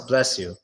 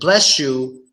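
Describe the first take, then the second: First: It has a very soft, quick sh sound. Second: It has a strong, hard sh sound. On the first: The speaker calls it right. "No, it's" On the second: The speaker calls it wrong. "don't pr pronounce a hard S H like"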